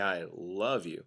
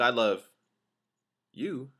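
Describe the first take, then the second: First: The word love carries the main stress. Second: The word you carries the main stress. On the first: The feeling is love, not something weaker like liking. "the emphasis is actually on love" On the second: The love is for someone else. "I love somebody, but it ain't you"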